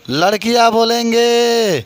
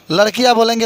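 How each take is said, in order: First: "लड़कियां बोलेंगे" stretched out slowly, half speed; drawn-out prompt. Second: Said in the usual way. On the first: Real, not acted. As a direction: call "लड़कियां बोलेंगे" out to the class, lengthening the words. Repeats call, prompting class to answer.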